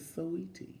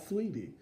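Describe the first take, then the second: First: The name is said with three syllables. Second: The name is said with two syllables. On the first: The speaker calls it right. "Put the A in there" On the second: The speaker calls it wrong. "it's not Sweetie"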